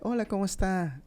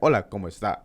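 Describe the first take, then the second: First: It is said in a higher, lighter, upbeat voice. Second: It is said in a lower, heavier, flatter voice.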